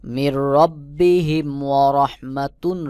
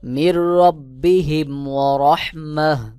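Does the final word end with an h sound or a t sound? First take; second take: t sound; h sound. First: The last word ends with a full 'tun' sound. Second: The last word ends with a soft 'h' sound. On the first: The reading continues without stopping. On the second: The reader stops at this point.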